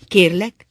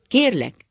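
First: Sharp, loud, higher "Kérlek" with a rising end; stern. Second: High, loud "Kérlek" falling at the end; raised voice. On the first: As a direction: say "Kérlek" as a strict warning, lifting at the end. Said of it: "mondotta egyszerre oly szigorúan". (szigorúan) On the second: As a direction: raise your voice on "Kérlek" and bring it down firmly. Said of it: "és fölemelte hangját". (felemelt hangon) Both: A narrator's reading.

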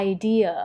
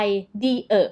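First: "idea" run together in one glide; connected syllables. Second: "I dear" chopped into separate "I, dee, uh"; disconnected syllables. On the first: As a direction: join every sound of "idea" smoothly, stressing "dea". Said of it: "เชื่อมยันคางต่อกัน". (เชื่อมเสียง idea ต่อกันไม่ขาด) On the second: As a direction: break "I dear" apart, sound by sound. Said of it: "อย่ามาเป็นแบบว่า I dear อย่างนี้ไม่ได้". (แยก I dear เป็น ไอ ดี เออะ ขาดกัน) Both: Shown as a demonstration.

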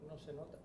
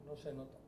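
Both takes have the same delivery.

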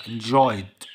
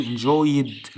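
First: "enjoyed" as two syllables, en-joyd; correct joined ending. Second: "enjoyed" wrongly said as en-joy-id; wrong extra syllable. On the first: Teacher correcting the ending for pupils, joined D. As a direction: join the D straight onto "enjoyed", no "id". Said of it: "لا، enjoyed". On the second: Teacher warning pupils off a mistake, wrong extra syllable. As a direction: add a separate "id" syllable to "enjoyed". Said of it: "ما حدش يقول لي برضه". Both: Shown as a demonstration.

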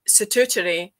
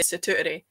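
First: "statutory" with every t sounded; clearly enunciated. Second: "statutory" with a glottal stop replacing a t; casual glottal stop. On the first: Host says it for communicating to other people, clearly enunciated. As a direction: say "statutory" carefully, both middle t's crisp. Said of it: "would be how I would say it". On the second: Host says it as if just to themself, glottal stop. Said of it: "if I was just saying it myself". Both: Shown as a demonstration.

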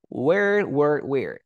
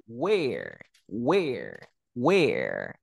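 First: Where said with the mouth nearly closed, more American; Americanized were. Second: Where with a wide-open mouth, falling each time. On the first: Teacher contrasts the past tense with an Americanized were. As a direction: keep the mouth almost shut on where. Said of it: "sino es como más agringada". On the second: Teacher drills the student on where with an open mouth. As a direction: drop the jaw and say where, where, where. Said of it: "Abro mi boca". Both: Shown as a demonstration.

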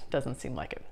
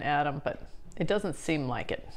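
First: Softer, lower echo of "Doesn't seem like it"; muttered afterthought; quiet aside. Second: Said in the usual way. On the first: Real, not acted. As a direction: repeat "Doesn't seem like it" under the breath, dropping away.

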